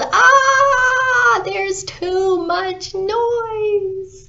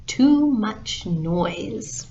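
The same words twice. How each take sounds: First: Very high, drawn-out scream of frustration; long anguished holler, stretched slow; exasperated yell. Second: Slow, deliberate title announcement; measured storybook sign-off; closing title. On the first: Acted. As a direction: yell it as if tearing your hair out. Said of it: "clutched his hair and yelled". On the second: Real, not acted. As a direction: spell out the story's name slowly. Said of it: "And that's the story".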